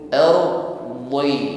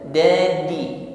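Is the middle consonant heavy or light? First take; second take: heavy; light. First: The middle consonant is heavy and thick. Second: The middle consonant is light, like a d. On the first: The speaker calls it right. "bukan ardi tetapi ardi" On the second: The speaker calls it wrong. "Kalau ardi tipis, ringan pengucapannya, masuknya huruf dal"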